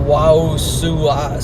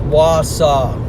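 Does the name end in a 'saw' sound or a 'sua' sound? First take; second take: sua; saw. First: The name ends with a 'sua' sound. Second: The name ends with a 'saw' sound. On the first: The speaker calls it wrong. "Instead of Wausua" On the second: The speaker calls it right. "It's Wausau"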